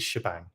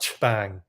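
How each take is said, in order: First: The word is said without any T sound. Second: The word is said with an added T sound. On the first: The speaker calls it right. "I think it is shebang" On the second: The speaker calls it wrong. "added like a, a T sound to it"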